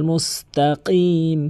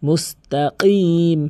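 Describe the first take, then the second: No difference in how they are said.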